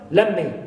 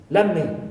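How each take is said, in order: First: The t at the end of 'let' is dropped. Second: The same.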